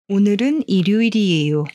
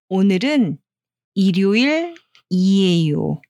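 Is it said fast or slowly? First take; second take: fast; slowly. First: It is said quickly, without pausing. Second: It is said slowly, with a short pause.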